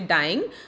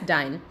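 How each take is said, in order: First: The word is said in its ordinary full form. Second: The word is shortened to sound like 'dine'. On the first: This is the word's usual pronunciation. "It is actually dying" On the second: The poem bends the word so it rhymes. "we will pronounce it as dine"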